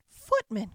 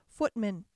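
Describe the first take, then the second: First: Louder impatient shout of footman!; impatient cry. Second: Mildly impatient call. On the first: Godmother shouts footman! louder, out of patience. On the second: Godmother calls for a footman, mildly impatient. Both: Acted. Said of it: "cried the godmother impatiently".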